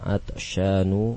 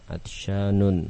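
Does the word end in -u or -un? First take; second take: -u; -un. First: The word ends in a plain -u vowel. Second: The word ends in -un with final n. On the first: The speaker calls it right. "Semuanya tidak menerima tanwin" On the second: The speaker calls it wrong. "Salah kalau dibaca dengan"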